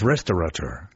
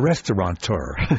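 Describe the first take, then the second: First: No 'n' sound is said in the middle. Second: An extra 'n' sound is said in the middle. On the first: The speaker calls it right. "of course, the word is restaurateur" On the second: The speaker calls it wrong. "the unnecessary N creeps in"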